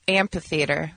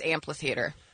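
First: There is no L sound after 'amph'. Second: An extra L sound follows the 'amp' part. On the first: The speaker calls it right. "it is pronounced exactly as it's written" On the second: The speaker calls it wrong. "I put an L in the word amphitheater"

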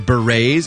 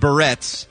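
First: The word is said with French pronunciation. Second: The word is said with an English-style pronunciation. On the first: The speaker calls it right. "that's the French way" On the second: The speaker calls it wrong. "I know you'd like to call it berets"

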